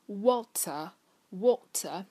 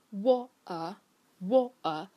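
First: Slow "water" with a clear t, no r; Received Pronunciation. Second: Slow "water" with glottal stop for t; swallowed t. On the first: Teacher shows standard RP for water, crisp t in "water". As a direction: say "water" in standard British, t fully released. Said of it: "标准的英式英语的发音里面呢". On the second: Teacher shows the other British way, glottal-stop "water". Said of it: "就是这个T它没有被发出来". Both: Shown as a demonstration.

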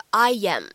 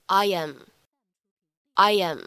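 First: "I am" said stiffly as two separate words, no glide; deliberately wrong, choppy "I am"; stiff wrong take. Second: Smooth "I am" with a gentle y link; light linking. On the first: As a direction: chop "I am" apart with no link. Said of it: "这样就不对了". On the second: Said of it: "可以带一个轻轻的连读". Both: Shown as a demonstration.

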